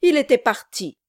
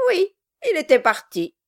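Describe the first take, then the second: First: Mildly angry, firm exclamation; heated outburst. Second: High-pitched, maddeningly untroubled agreement; infuriating calm. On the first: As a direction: insist with a touch of temper. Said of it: "avec emportement". (avec un léger emportement) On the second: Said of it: "toujours avec son calme révoltant". (avec un calme révoltant) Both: A narrator's reading.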